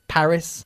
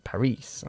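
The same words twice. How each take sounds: First: The stress is on the first syllable. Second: The stress is on the second syllable. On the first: The speaker calls it right. "We put the emphasis on the first syllable in English" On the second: The speaker calls it wrong. "y no Paris"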